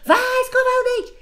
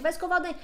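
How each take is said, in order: First: Much higher, louder, a shouted order; fed-up mother yelling at her child to brush his teeth; mother's yell. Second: Said in the usual way. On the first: Shown as a demonstration. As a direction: finally lose patience and yell it. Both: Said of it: "se minha mãe gritou".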